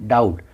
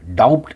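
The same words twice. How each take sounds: First: No b sound is heard before the t. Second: A b sound is heard before the t. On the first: The speaker calls it right. "बी silence है" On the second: The speaker calls it wrong. "डाउट नहीं"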